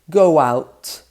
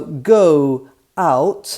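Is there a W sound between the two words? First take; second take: yes; no. First: A W sound joins the two words. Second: No W sound joins the two words.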